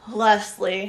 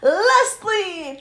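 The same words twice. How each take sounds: First: It is said flatly, without excitement. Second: It is said with lots of excitement.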